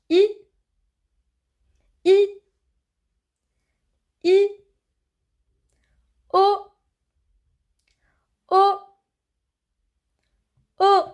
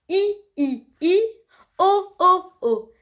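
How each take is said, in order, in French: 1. Les voyelles sont dites à un rythme plus lent. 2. Les voyelles sont dites à un rythme plus rapide.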